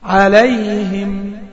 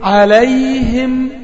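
The two takes are said the same way.

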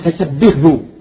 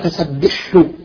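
First: The h sound turns into a soft h. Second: The h sound is doubled and held longer. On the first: "ربما تتحول إلى هاء فسبحه" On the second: "يحولها فسبحه يشدد الحاء"

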